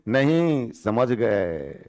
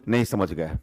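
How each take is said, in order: First: There is a pause after the first word. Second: The phrase runs together quickly with no pause. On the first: The listener did understand. The speaker calls it right. "माने नहीं के बाद comma था इनका" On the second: It sounds like the listener did not understand. The speaker calls it wrong. "इतना fast नहीं बोलिएगा तो गड़बड़ा जाएगा"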